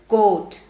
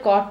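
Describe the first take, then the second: First: The vowel is a rounded 'oh' sound. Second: The vowel is an open 'aw' sound. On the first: The speaker calls it right. "But this is coat" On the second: The speaker calls it wrong. "how do people mispronounce coat? They usually say"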